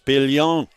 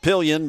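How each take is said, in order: First: The name is said with a New Orleans accent. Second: The name is said the way she says it.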